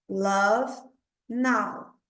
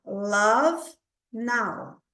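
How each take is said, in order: No difference in how they are said.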